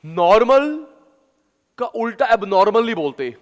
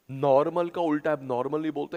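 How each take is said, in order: First: High, loud teaching recitation; punchy, raised-pitch mnemonic; loud memory drill. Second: Said in the usual way. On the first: Shown as a demonstration. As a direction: belt it out for the class to memorise. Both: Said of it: "आराम से, आराम से".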